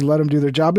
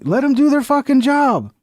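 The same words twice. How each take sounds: First: Said in the usual way. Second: Higher and punchier, leaning on "do"; emphatic agreement. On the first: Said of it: "the mayor says". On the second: Real, not acted. Streamer endorsing the mayor's words, emphatic. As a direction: hit "do" hard, approving.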